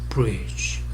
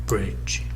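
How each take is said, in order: No difference in how they are said.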